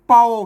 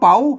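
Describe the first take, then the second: First: It is said with the ek tone. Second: It is said with the chattawa (rising) tone. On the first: "เสียงเอก" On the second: "เสียงชัด"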